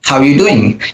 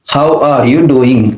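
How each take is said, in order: First: The words are cut short and run together. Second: Every syllable is said fully and separately. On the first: "they cut short" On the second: "we have to say every single letter, syllables, everything"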